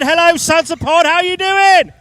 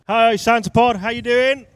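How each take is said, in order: First: It is said loudly with high energy. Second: It is said with low energy.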